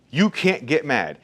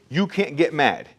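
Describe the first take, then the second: First: You can't get mad said slowly, each word weighted; slow emphatic repeat. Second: Said in the usual way. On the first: Shown as a demonstration. Owner repeating the rule to his barbers, slow and firm.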